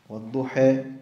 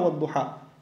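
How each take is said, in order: First: The final vowel is slightly raised toward e. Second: The final vowel is a fully open a. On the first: "Ils prononcent at-taqlil" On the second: "Ils ne disent pas wadduha. Ils ne prononcent pas la fatha"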